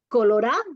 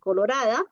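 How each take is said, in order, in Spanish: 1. Se elide la última sílaba de la palabra. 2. Se conserva la última sílaba de la palabra.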